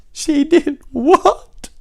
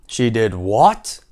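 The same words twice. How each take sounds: First: Very high, loud, drawn-out wail; hammed-up shrieking sob of disbelief; wailing cry. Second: Loud, slow disbelief, rising at the end; first, restrained cry of a shocked king; incredulous king. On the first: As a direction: cry it out as a weeping, shocked king. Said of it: "cried the king. So it's more like". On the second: Acted. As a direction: stretch it into a shocked question. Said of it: "cried the king".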